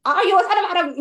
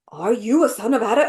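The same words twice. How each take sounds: First: Higher-pitched mock crazy bag lady. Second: Mock awed question, lightly scared; almost scared. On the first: Viewer mimicking the Queen meeting Edmund, crazy bag lady. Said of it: "this crazy bag lady". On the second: Imitating the American Queen meeting Edmund, almost scared. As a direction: imitate someone a little scared of him. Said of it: "almost like she's scared of him".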